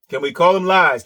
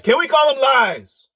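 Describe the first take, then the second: First: Said in the usual way. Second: Pitched up and insistent; Can we call them lies pushed higher, stress on we; higher, pressing repeat. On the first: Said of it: "repeated higher". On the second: Shown as a demonstration. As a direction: push the question up in pitch to needle him. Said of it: "first take plain".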